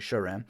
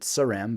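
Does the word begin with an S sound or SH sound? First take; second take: SH sound; S sound. First: The word begins with an SH sound. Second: The word begins with a plain S sound. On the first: The speaker calls it right. "I learned that it's actually Sharam" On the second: The speaker calls it wrong. "I used to pronounce it Saram"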